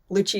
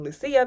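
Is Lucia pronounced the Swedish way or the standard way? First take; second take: standard; Swedish. First: The name is pronounced the standard way. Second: The name is pronounced the Swedish way. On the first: This is the form most people use. "Lucia is the proper pronunciation, how a lot of people say it" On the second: This is the form used in the speaker's family. "I grew up saying Lucia because my family is Swedish"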